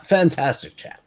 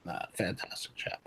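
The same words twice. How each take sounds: First: Said in the usual way. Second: "fantastic chap" whispered again, breathy and much softer; whispered repeat. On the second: Acted. The gentleman repeating his praise to himself in a whisper.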